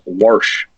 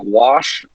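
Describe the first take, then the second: First: "worsh" said with an r, like worsh; old-timer worsh. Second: Said in the usual way. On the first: Shown as a demonstration. Telling how his grandma says the word "worsh". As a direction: wash pronounced "worsh" with an r before the sh. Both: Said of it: "she said, like".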